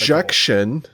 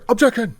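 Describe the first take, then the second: First: It is said plainly, in a normal voice. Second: It is shouted dramatically like Phoenix Wright.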